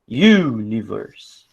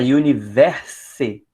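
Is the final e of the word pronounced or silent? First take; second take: silent; pronounced. First: The final e is silent, giving three syllables. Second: The final e is pronounced as an extra syllable. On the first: The speaker calls it right. "você engole a última letra" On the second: The speaker calls it wrong. "Você nunca vai falar universe"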